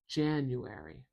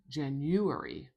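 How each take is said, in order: First: The stress is on the first syllable. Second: The stress is not on the first syllable. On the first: The speaker calls it right. "I say January, January. Stress at the beginning of this word" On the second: The speaker calls it wrong. "I don't say January"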